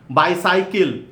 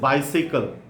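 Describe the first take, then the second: First: It is said with an Indian English pronunciation. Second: It is said with a standard English pronunciation. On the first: The speaker calls it wrong. "Indian one, the wrong one" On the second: The speaker calls it right. "standard English pronunciation"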